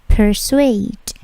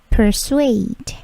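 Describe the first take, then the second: The two takes are said the same way.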